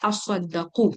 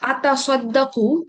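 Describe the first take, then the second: First: The t merges into a doubled s sound. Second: The t sound is pronounced separately.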